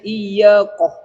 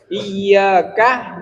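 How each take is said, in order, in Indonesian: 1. Suku kata terakhir adalah "koh" yang membulat. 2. Suku kata terakhir adalah "ka" yang jelas. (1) "Bisanya iya koh. Kah koh enggak bisa" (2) "Seperti misalnya iyyaka"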